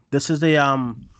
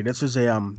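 First: Said in the usual way. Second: Words around a sip of coffee; talking with coffee in mouth; while sipping a drink. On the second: Real, not acted. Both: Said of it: "sorry, I'm drinking coffee".

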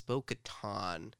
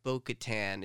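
First: "Bo-Katan" drawn out, last syllable like TAHN; corrected pronunciation. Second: "Bo-Katan" with the last vowel as in cat; wrong pronunciation. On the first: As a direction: say "Bo-Katan" slowly with an open ah ending. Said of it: "it's Bo-Katan". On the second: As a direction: say "Bo-Katan" with a flat TAN, as in tan. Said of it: "it's not Bo-Katan". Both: Shown as a demonstration.

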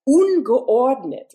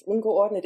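First: Disorderly. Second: Said in the usual way. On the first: Shown as a demonstration. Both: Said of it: "ungeordnet is like disorderly".

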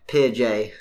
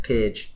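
First: "Peer J" as peer plus the letter jay; two-word pronunciation. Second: "Peerage" run together as one word, ending in -ij; mistaken pronunciation. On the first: Podcaster citing the journal, "Peer J" said as peer-jay. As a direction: say "Peer J" with a full, separate "jay". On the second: Co-host showing how the journal isn't said, "Peerage" as one word. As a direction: say "Peerage" like the noble rank, PEER-ij. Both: Shown as a demonstration. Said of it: "it's not pronounced Peerage".

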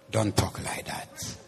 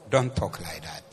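First: Hushed, voiceless warning; breathy hushed correction; whispered rebuke. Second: Said in the usual way. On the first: Shown as a demonstration. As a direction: whisper it like a secret scolding.

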